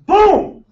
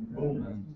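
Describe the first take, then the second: First: A big, high, punched "Boom."; loud boom. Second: A breathy, near-silent boom; soft boom. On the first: Speaker booms it to the crowd, loud and high. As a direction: slam the word "Boom." out much higher and louder. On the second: Hushed boom to the room before the big one. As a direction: breathe the word "Boom." out with almost no voice. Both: Pretend. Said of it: "Richie loves that boom".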